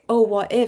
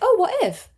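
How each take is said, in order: First: It sounds anxious and worried. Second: It sounds excited and open.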